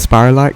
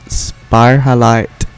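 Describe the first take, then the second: First: The middle is said as 'ral', with no h. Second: The middle is said as 'hal', with an h. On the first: It is easier to say. "I pronounce it Spiralite because it rolls off the tongue better" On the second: It keeps the word for the salt mineral. "it's a mix of the words spiral and halite"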